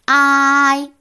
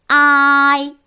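First: The first vowel is drawn out long. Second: The same.

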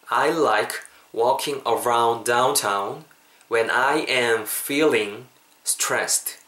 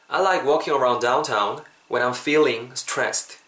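First: It is said slowly, word by word. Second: It is said at a natural, connected speed.

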